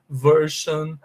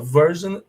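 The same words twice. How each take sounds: First: The ending is said with an 'sh' sound. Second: The ending is said with a 'zh' sound. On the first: The speaker calls it wrong. "se vocês tomarem isso aqui como uma regra geral e absoluta, vocês vão falar assim" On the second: The speaker calls it right. "é pronunciado com som de jan"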